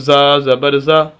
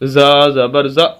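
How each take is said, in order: First: It is read smoothly without a jolt. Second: It is read with an abrupt jolt. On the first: The speaker calls it right. "ऐसे ही पढ़ेंगे" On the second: The speaker calls it wrong. "झटका दे के नहीं पढ़ना ... ऐसे नहीं पढ़ना"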